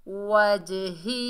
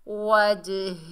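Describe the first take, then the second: No difference in how they are said.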